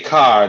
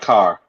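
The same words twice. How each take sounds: First: The final r sound is dropped. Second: The final r sound is pronounced. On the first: This is how people from Boston say it. "we don't pronounce we say car" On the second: This is how people elsewhere say it. "not car"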